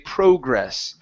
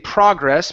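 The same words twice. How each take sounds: First: It is pronounced the British way. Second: It is pronounced the American way. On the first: "that's the British pronunciation of the word" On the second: "Personally, I say progress"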